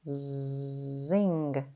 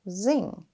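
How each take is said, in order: First: The word is stretched slowly, sound by sound. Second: The word is said quickly as one unit. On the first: "Tap and stretch" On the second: "Say it fast"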